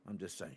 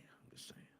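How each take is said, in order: First: Said in the usual way. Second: Whispered aside. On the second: Real, not acted. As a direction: breathe it out under your breath. Repeats the line, then whispers it.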